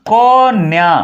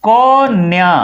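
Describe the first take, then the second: The two takes are said the same way.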